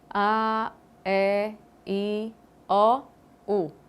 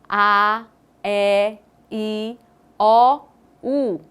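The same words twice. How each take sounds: First: The vowels are said with barely moving lips. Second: The vowels are said with a wide mouth opening. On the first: The speaker calls it wrong. "falar todas elas sem quase mexer o lábio" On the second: The speaker calls it right. "bem expressivas, com uma abertura muito grande da boca"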